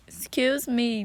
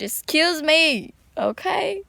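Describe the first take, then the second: First: Said in the usual way. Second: Higher, louder, drawn-out excuse me; emotional outburst. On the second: Real, not acted. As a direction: blurt it out, overcome with feeling. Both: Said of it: "I kinda got a little bit emotional".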